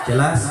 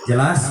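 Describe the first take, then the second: The two takes are said the same way.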